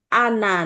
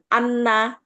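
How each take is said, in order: First: The n sound is short and single. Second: The n sound is held and doubled. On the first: The speaker calls it right. "karena nunnya tidak ada tasdid kan" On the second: The speaker calls it wrong. "bukan Anna"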